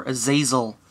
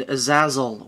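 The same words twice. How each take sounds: First: Azazel with a long A in the middle; alternative pronunciation. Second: Azazel with a short A in the middle; first pronunciation. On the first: Reviewer offering viewers another option, alternative pronunciation of Azazel as uh-ZAY-zel. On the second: Reviewer introducing the two-pack figure, first pronunciation of Azazel as uh-ZAZ-el. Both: Shown as a demonstration. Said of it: "however you want to pronounce that".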